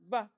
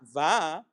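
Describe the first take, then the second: First: The vowel is clipped short. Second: The vowel is drawn out long. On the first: The speaker calls it right. "but Va. Short" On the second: The speaker calls it wrong. "Not Va"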